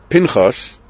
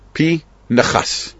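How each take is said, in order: First: The n closes the first syllable: Pin-chas. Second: The n starts the second syllable: Pi-nechas. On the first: The speaker calls it wrong. "the colloquial way of saying the name" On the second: The speaker calls it right. "The correct way is the first syllable is P"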